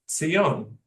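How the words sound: It is said with a Hebrew pronunciation. "the Hebrew pronunciation"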